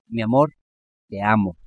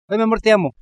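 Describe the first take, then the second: First: It is said tenderly and sincerely. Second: It is said casually, out of habit.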